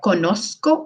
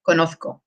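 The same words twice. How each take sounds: First: The z is a soft s sound. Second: The z is a th sound. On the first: "but conozco, like more like a soft s" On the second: "Spain Spanish accent, it's like a th"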